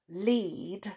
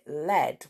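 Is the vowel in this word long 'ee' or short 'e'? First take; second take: long ee; short e. First: The vowel is a long 'ee' sound. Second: The vowel is a short 'e' sound. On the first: "the word lead, L-E-A-D" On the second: "you can also pronounce it led"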